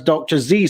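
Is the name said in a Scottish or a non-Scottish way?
non-Scottish. The name is said the non-Scottish way. "she prefers"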